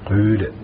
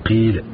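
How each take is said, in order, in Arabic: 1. الحركة الأولى كسرة مع تدوير الشفتين. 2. الحركة الأولى كسرة خالصة غير مدوّرة. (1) "بالإشمام" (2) "بالكسر الخالص"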